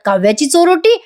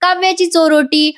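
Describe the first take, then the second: First: Higher, rising disbelieving question; imitated wide-eyed surprise; mock astonishment. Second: High-pitched mild yell; imitated excited shout; mock shout. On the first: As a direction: echo it as a stunned aunt. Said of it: "मोठे मोठे डोळे करून बघायला लागतात". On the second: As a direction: announce it in a raised pitch. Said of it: "मोठ्याने ओरडतात".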